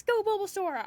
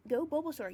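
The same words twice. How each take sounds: First: Enthusiastic cheer. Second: Said in the usual way. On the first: Real, not acted. Streamer echoing a viewer's Bulbasaur cheer, enthusiastic.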